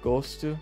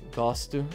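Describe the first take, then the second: First: The first vowel is a closed O. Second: The first vowel is an open O. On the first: This is how people in Rio say it. "I like less" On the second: This is how people in São Paulo say it. "I like the open O quite a bit"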